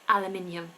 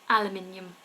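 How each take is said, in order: First: It is said the British way, five syllables. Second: It is said the British way, five syllables.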